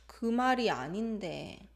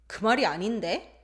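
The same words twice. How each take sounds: First: The pitch falls at the end of the phrase. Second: The pitch rises at the end of the phrase. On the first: The speaker is hesitant and does not want to argue. "When intonation falls, it shows hesitation and it's non-confrontational" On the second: The speaker is contradicting someone confrontationally. "That's not what I'm saying"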